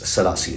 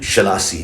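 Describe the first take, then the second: First: The name begins with an s sound. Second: The name begins with a sh sound. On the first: "it's Selassie" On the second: "you might notice there's a sheen in there"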